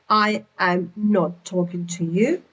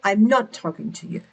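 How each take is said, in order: First: Each word is said fully and separately. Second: The first two words merge into one syllable.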